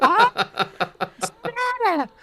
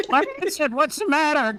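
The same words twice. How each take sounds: First: Extremely high, slow squeal; shrill. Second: Very high demanding squeal; shrill. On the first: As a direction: stretch out a piercing shriek. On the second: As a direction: screech the question up high. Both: Acted. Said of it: "Carly Beth demanded shrilly".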